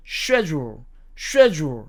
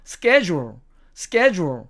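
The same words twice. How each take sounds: First: Schedule said SHED-yool, with sh; British SHED-jool, clearly demonstrated; British pronunciation. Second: Schedule said SKED-jool, with a hard sk; American SKED-jool, clearly demonstrated; American pronunciation. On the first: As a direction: say schedule starting with sh, British style. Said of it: "영국식 발음으로는 이것을". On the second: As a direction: say schedule starting with sk, American style. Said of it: "이게 미국식 발음입니다". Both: Shown as a demonstration.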